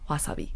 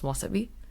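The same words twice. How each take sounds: First: The word has a Japanese pronunciation. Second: The word has an English pronunciation. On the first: "in Japanese, it's also" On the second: "In English, the pronunciation is"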